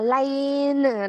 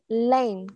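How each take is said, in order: First: The word is said slowly and drawn out. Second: The word is said quickly and clipped. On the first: "Đọc chậm là lane đó" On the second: "Đọc nhanh này"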